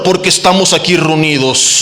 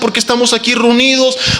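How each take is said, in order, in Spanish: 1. Se dice con una voz rara, afectada y gutural. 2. Se dice con una voz natural y sencilla, como al hablar. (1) "cambiar su tono de voz, hablar raro" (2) "una oración breve por los alimentos"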